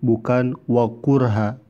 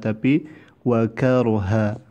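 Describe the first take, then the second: First: The first vowel of the word sounds like u. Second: The first vowel of the word sounds like a. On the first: The speaker calls it wrong. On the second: The speaker calls it right.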